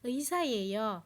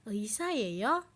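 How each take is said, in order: First: The pitch stays low at the end. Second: The pitch rises at the end.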